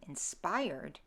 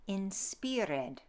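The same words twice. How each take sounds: First: Said in the usual way. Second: "inspired" as in-SPEER-ed, slowly; Middle English pronunciation. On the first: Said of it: "so instead of". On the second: Shown as a demonstration. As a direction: say "inspired" with an EE and sound the -ed. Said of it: "The I sound shifts to an".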